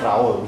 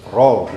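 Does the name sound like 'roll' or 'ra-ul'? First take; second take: ra-ul; roll. First: The name sounds like 'ra-ul', two syllables. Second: The name sounds like 'roll', one syllable. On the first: The speaker calls it wrong. "Tapi jangan bacanya Raul gitu" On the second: The speaker calls it right. "Roll gitu ya"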